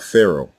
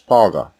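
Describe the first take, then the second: First: The word has no throaty guttural consonant. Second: The word has a throaty guttural consonant. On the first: This is the form adapted for speakers without that sound. The speaker calls it wrong. "that is the only way the Greeks could say it" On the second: This keeps the earliest form of the word. The speaker calls it right. "a voiced pharyngeal fricative consonant, or guttural"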